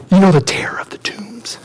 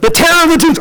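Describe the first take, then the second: First: Hushed, breath-only secret; spooked whisper. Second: High, urgent repeat; exasperated repeat. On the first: Shepherds telling townspeople about the madman, spooked whisper. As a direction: whisper it as a dreaded name. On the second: Shepherd repeating the dreaded name to townspeople, urgent. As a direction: say it up high for someone who missed it. Repeats louder after being asked what. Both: Acted.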